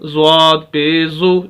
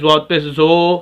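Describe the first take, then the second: First: The final syllable has a pure 'oo' vowel. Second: The final syllable has an 'oh' vowel. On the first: The speaker calls it right. "ज़ू ना पढ़े" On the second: The speaker calls it wrong. "तो ये मजहूल पढ़ा जाएगा जो कि गलत है"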